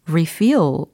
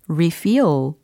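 First: The stress is on the second syllable. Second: The stress is on the second syllable.

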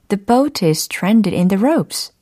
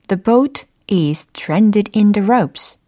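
First: It is said faster. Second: It is said at a normal pace.

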